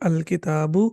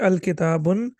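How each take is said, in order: First: The word ends on a vowel without n. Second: The word ends with an added n sound. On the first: The speaker calls it right. "ये ठीक होगा" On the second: The speaker calls it wrong. "तो ये गलत होगा"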